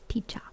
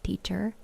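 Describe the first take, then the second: First: British "teacher" ending in an open "ah"; attempted British accent, "teacher" as "teach-ah". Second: Said in the usual way. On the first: Shown as a demonstration. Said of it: "So just an A in the background". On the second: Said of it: "the British accent wouldn't be like".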